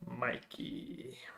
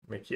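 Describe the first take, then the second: First: The first vowel is long, as in 'Mike'. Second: The first vowel is short, as in 'Mick'. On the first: The speaker calls it right. "Like Mike and Angelo" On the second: The speaker calls it wrong. "Am I saying it right? Wrong?"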